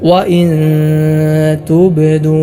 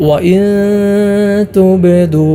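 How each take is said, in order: Both takes have the same delivery.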